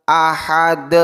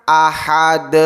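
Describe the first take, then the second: No difference in how they are said.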